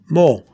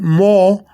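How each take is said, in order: First: The vowel is two quick sounds in succession. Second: The vowel is one long, held sound. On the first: The speaker calls it right. "I'm saying two O's, but rapidly" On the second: The speaker calls it wrong. "I'm not saying more"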